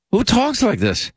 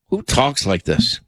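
First: Much higher, incredulous repeat; stunned disbelief. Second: Said in the usual way. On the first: Real, not acted. Host reacting to an offensive clip, pitched-up disbelief. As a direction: say it again as if you can't believe your ears.

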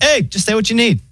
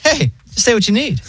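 First: High, relaxed robot operator voice; chill AI voice. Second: High, breezy AI operator voice; chill robot voice. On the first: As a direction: imitate a laid-back phone bot. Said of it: "And then it's like". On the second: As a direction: mimic a super relaxed phone bot. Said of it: "the robot voice is, like, so chill". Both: Retold or imitated.

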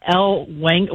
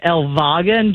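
First: Said in the usual way. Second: "Elwagen" said the German way, with a v sound for w; German pronunciation. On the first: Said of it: "well, it's technically Elwagen". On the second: Shown as a demonstration. Caller correcting herself on husband's namesake town, "Elwagen" with German v. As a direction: say "Elwagen" as el-VAH-gen. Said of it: "it's technically Elwagen".

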